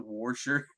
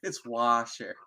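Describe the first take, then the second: First: Washer with an R, like wor-sher; Jersey-style Washer; Jersey pronunciation. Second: Washer said plainly as wah-sher, no R; plain correct Washer; standard pronunciation. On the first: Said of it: "mocking Jersey accent". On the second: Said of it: "correct form". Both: Shown as a demonstration.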